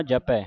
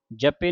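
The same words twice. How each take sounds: First: ਜਪੈ with an open "-ai" ending; correct vowel shown. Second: ਜਪੇ with a close "-e" ending; wrong vowel shown. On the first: (ਜਪੈ ਨੂੰ ਦੁਲਾਵਾਂ ਨਾਲ ਬੋਲੋ) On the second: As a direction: end ਜਪੇ on "pay". (ਜਪੇ ਨੂੰ ਲਾਂ ਨਾਲ ਬੋਲੋ) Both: Shown as a demonstration. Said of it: "ਜਪੇ ਨਹੀਂ ਪੜ੍ਹਨਾ".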